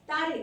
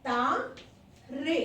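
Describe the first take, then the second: First: Said in the usual way. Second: तारे split into two drawn-out syllables, ता and रे; slow syllable-by-syllable. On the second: Shown as a demonstration. Teacher writing out the plural for pupils, तारे sounded out slowly in syllables. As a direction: stretch तारे slowly, pausing between ता and रे.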